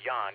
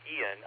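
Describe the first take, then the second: First: The name is said as one syllable. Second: The name is said as two syllables. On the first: This is how the man himself says it. "but he pronounces it Jan" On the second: This is the usual English way of saying it. "like we would say it"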